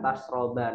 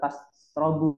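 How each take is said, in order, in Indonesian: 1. Kata ini berakhir dengan vokal a pendek. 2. Kata ini berakhir dengan vokal u pendek.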